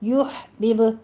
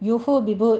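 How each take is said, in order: First: The h sound has no vowel after it. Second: A short vowel follows the h sound. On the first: The speaker calls it right. "आपने हा को साकिन करना है" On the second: The speaker calls it wrong. "यूहो बिब नहीं कहना"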